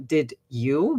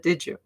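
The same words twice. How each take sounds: First: Did you? said as separate did you with a clear D and Y; unassimilated. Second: Did you? blended into didja, D and Y merged to J; assimilated. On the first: Teacher showing the careful form nobody uses. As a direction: keep the D and the Y apart in Did you?. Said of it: "You never say". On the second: Teacher showing the natural blended form in speech. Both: Shown as a demonstration.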